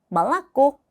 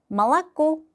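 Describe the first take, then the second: The two takes are said the same way.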